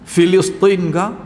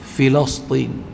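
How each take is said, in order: First: The vowel after the L is 'i'. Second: The vowel after the L is 'a'. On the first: The speaker calls it wrong. "Macam-macam orang sebut" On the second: The speaker calls it right. "Baris kasrah mula-mula tu, lam tu baris patah"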